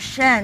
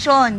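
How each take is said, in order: First: The syllable is said with spread, smiling lips. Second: The syllable is said without spread lips. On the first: The speaker calls it right. "you only have Shen with a smile" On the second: The speaker calls it wrong. "In the language, we have Sean"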